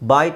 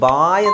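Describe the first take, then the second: First: The vowel is kept short. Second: The vowel is stretched out long. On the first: The speaker calls it right. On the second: The speaker calls it wrong.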